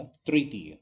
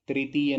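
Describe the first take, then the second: First: तृतीय with a short vibrating ऋ; तृतीय, tongue pulled back on the r; correct तृ pronunciation. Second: तृतीय with a clear "tree" start; plain i after tr in तृतीय; wrong "त्रि" pronunciation. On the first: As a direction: say तृतीय as "trr-tiya". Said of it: "तृतीय होता है". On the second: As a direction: say तृतीय as "tri-tiya", louder. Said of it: "तृतीय नहीं होता". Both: Shown as a demonstration.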